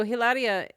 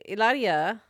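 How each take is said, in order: First: "Hilaria" with the H sounded; H pronounced. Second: "Hilaria" with the H dropped, as "ee-LAH-dee-a"; silent H. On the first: Host naming Alec Baldwin's wife, H pronounced. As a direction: say "Hilaria" starting on a breathed H. Corrects name to its Spanish form. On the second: Host correcting the wife's name, silent H. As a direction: say "Hilaria" Spanish-style, no H, tapped R. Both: Shown as a demonstration.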